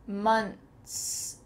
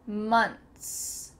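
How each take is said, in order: Both takes have the same delivery.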